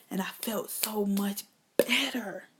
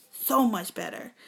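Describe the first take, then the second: First: Slow, soft whisper. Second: Said in the usual way. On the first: Real, not acted. Telling the crowd about her relief, whispered. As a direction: sigh it out as a hush of relief.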